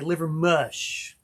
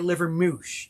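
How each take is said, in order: First: The last syllable sounds like 'mush'. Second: The last syllable sounds like 'moosh'. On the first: The speaker sounds like a local. The speaker calls it right. "You say Livermush" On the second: The speaker is not from the area. The speaker calls it wrong. "you don't say Livermouche"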